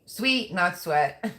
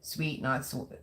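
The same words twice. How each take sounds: First: "Sweet" drawn out slowly with a rising tune, "sweat" set apart; stressed correction. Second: Said in the usual way. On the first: Shown as a demonstration. Streamer to her chat, correcting a typo slowly. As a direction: slowly spell out "Sweet, not sweat" so "Sweet" rings clear.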